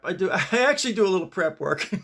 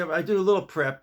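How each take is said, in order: First: Mild push on the word "little"; stress on little. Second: Said in the usual way. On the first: Shown as a demonstration. Joking to YouTube friends about his prep, stress on "little". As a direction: lean on "little" with a laugh. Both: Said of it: "Emphasis on the word little".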